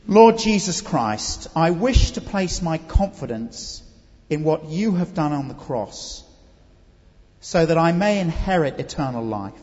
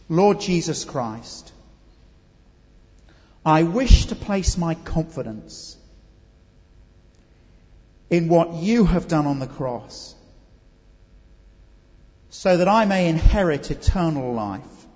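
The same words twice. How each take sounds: First: It is said at a normal, quicker pace. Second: It is said at a slow pace.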